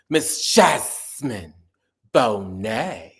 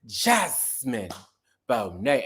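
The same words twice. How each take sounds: First: "Jasmine" stretched long and loud, "Bonet" falling; emcee name call. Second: Said in the usual way. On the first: Retold or imitated. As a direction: drag out "Jasmine", drop on "Bonet". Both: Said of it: "nobody said Jasmine's names like Mina Darnell".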